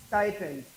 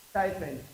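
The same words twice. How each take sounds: The two takes are said the same way.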